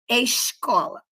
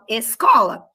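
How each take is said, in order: First: The s before the c sounds like sh. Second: The s before the c is a plain s. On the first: This is how the listeners' region says it. "eu não falo escola" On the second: This is how the speaker's region says it. "eu falo escola"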